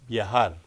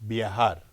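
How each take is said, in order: No difference in how they are said.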